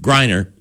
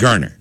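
First: The first vowel sounds like 'eye'. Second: The first vowel sounds like 'er'. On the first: The speaker calls it wrong. "after Hugh called him Griner" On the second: The speaker calls it right. "just take the I out. Just call him like it's Gurner"

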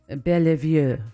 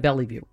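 First: The name is given a fancy, elaborate pronunciation. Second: The name is given a plain, ordinary pronunciation. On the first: The speaker calls it wrong. "I'm making him sound fancier than he is" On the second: The speaker calls it right. "It's probably Bellevue"

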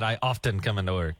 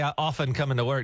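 First: The T sound in often is pronounced. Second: The T sound in often is silent. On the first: The speaker calls it wrong. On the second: The speaker calls it right. "So I would have to say"

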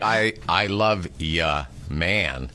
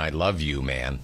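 First: The pronoun is reduced to a short 'ya'. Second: The pronoun is said as a full 'you'. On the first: It is a casual, friendly goodbye. "I might say, I love ya, man" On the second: It is a sincere statement of affection. "which is different than I love you, man"

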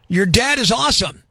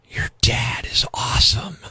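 First: It is spoken in a normal voice. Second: It is whispered in a creepy way.

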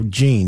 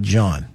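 First: The name is said the Haitian way, as 'Jean'. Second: The name is said like the English name 'John'. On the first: The speaker calls it right. "they are Jean, not John" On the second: The speaker calls it wrong. "not John"

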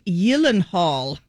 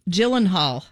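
First: The name is said with a Swedish pronunciation. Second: The name is said with an anglicized pronunciation. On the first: The speaker calls it right. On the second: The speaker calls it wrong.

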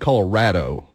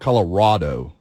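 First: The middle syllable has the vowel of 'rad'. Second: The middle syllable has the vowel of 'rod'. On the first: The speaker calls it right. "To me, it's Colorado" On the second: The speaker calls it wrong. "not Colorado. There's no O in there"

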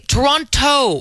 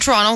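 First: The second T is strongly pronounced. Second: The second T is dropped. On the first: The speaker calls it wrong. "they punch that T like it's the hardest syllable in the world" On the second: The speaker calls it right. "you know that you don't say that second T"

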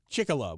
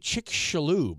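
First: The middle has no 'sh' sound. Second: The middle has a 'sh' sound. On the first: The speaker calls it wrong. "you're ignoring the X in the middle of it" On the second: The speaker calls it right. "It should be Chicxulub, right? If it's a shish"

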